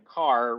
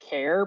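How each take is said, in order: First: It rhymes with far, starting with a k sound. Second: It rhymes with air, starting with a k sound. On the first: It is a personal choice with no clear basis. "And then car, which makes no sense, but is how I've chosen to say it" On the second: It follows the start of the full word character. "the ones that I've heard are um are care because character"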